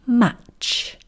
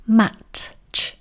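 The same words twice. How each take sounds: First: "Match." with the t stopped and a short pause before ch; held t. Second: "mat-ch." with the t released before the ch; t and ch split. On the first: Teacher showing the correct blended match. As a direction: hold the t in "Match." then release into ch. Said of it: "we're going to do about half of the T sound". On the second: Teacher showing the wrong way to say match. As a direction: split "mat-ch." into two parts. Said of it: "We are not going to say". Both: Shown as a demonstration.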